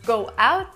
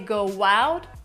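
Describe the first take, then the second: First: The two words are said without a W sound. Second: A W sound links the two words together. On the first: "Instead of go out" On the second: "we say go out with an extra W sound"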